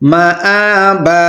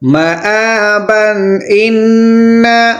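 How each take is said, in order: First: It stops, ending on a long 'a' sound. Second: It ends in 'an', linked into 'inna'. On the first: "यहाँ पर सांस तरेंगे तो माबा" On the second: "मिलाकर पढ़ेंगे तो माबन इन्ना"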